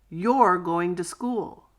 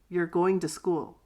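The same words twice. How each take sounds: First: It is said slowly and carefully. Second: It is said quickly and reduced.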